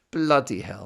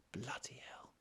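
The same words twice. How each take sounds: First: Loud amazed outburst; exclamation. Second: Hushed disbelieving whisper. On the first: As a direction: blurt it out in disbelief. Exclaiming at the lyric. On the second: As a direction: breathe it out in awe. Whispered repeat of exclamation. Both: Real, not acted.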